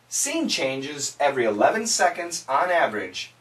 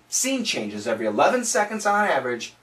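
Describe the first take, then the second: First: The phrase is spoken at a quicker pace. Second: The phrase is spoken at the quickest pace. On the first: "Let's say it faster" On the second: "say it a little bit faster"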